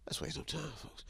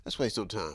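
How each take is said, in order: First: Breathy hush of the intro line; whispered. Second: Said in the usual way. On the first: Acted. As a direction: whisper it low.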